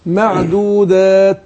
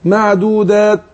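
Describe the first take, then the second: First: معدودات with the final ت breathed out audibly; slow teacher demo of معدودات with a clear breathy ت; whispered t. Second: معدودات with no ت heard at the end; wrong take of معدودات without the final ت; swallowed t. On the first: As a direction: let the air of ت in معدودات be heard. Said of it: "لكن لو قلت معدودات". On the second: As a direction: drop the breath of ت in معدودات. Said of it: "مفيش تاء". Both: Shown as a demonstration.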